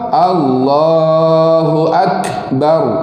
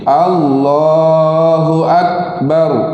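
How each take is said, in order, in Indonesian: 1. Bunyi k ada hembusan yang kuat dan berlebihan. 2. Bunyi k tidak ada hembusan sama sekali. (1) "Kalau yang melampau" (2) "Kalau tak ada langsung dia akan bunyi begini"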